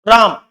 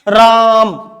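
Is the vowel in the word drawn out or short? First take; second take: short; drawn out. First: The vowel is held for a normal length. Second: The vowel is held about three times longer. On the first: "ये अवग्रह चिन्ह नहीं लगा तो ये तो है राम" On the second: "तीन गुना समय तक बोलेंगे हम इसको"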